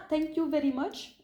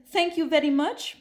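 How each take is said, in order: First: Slow thank you with French vowels; French accent in English. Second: Put-on French-accented English. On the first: Retold or imitated. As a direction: say it like a French speaker struggling with English. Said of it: "Non, mais c'était vraiment". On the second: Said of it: "c'était genre".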